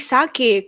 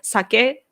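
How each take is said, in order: First: The word is said with an English pronunciation. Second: The word is said with a Japanese pronunciation. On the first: "you guys call sake sake" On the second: "It's both are sake and karaoke"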